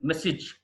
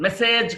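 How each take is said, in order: First: మెసేజ్ with a short "sij"; correct pronunciation. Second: మెసేజ్ with a long "sayj"; wrong pronunciation. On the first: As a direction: say మెసేజ్ as "MESS-ij". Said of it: "మెసేజ్ కాదు". (మెసేజ్ చివర "సిజ్" అని) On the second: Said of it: "కాదు". (మెసేజ్ చివర "సేజ్" అని తప్పుగా) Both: Shown as a demonstration.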